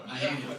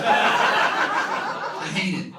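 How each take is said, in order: First: Said in the usual way. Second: Drawn-out exasperated cry; loud comic groan. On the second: Acted. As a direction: stretch it out, hating it. Comic outburst about bathrooms.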